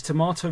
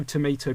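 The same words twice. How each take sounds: First: TOMATO said "tuh-MAH-toh"; British-style tomato, middle syllable MAH. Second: TOMATO said "tuh-MAY-toh"; American-style tomato, middle syllable MAY. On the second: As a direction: say tomato with "ay" as in day. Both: Shown as a demonstration. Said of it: "is there a third way to pronounce".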